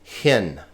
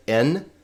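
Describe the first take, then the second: First: "Hin" with an audible h first; rough breathing. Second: "in" with no h at the start; smooth breathing. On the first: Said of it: "These breathing marks matter". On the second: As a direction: open "in" straight on the vowel. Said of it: "with the smooth breathing mark". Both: Shown as a demonstration.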